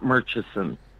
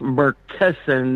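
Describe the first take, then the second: First: The middle consonant is a ch sound. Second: The middle consonant is a hard k sound. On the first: The speaker calls it wrong. "not Murchison" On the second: The speaker calls it right. "it's uh, pronounced Murkison"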